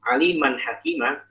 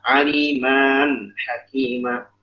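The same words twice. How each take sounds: First: The end of aliman is not lengthened. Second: The end of aliman is lengthened. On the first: The speaker calls it right. "alimannya tidak dibaca mat" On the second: The speaker calls it wrong. "nggak boleh dibaca"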